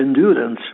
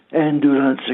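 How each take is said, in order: First: The stress falls on the second syllable. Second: The stress falls on the last syllable. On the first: The speaker calls it right. "si dice endurance" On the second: The speaker calls it wrong. "che non si dice"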